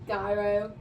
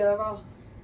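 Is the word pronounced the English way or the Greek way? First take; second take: English; Greek. First: The word has an English pronunciation. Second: The word has a Greek pronunciation. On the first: "In English" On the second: "I'm going to say it how you say it in Greek"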